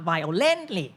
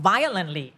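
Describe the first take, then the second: First: "violently" with stress moved to LENT, vio-LENT-ly; wrongly shifted stress. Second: "violently" with stress on the first syllable, VI-olently; root stress kept. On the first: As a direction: lean on the middle of "violently". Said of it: "it's not violently". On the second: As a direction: punch the start of "violently". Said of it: "ไม่ต้องเลื่อน stress". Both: Shown as a demonstration.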